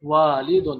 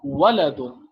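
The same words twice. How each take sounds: First: والدن with long aa: waa-li-dun; والدن with the long aa sound, teacher demo; long a in Walidun. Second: ولدن as wa-la-dun, short vowels, slow; slow ولدن with short vowels, carefully; short a in Waladun. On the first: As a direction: say والدن as waalidun, stretched first vowel. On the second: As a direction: say ولدن with short a, not long. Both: Shown as a demonstration. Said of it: "اور دوسرا ہے ولدن".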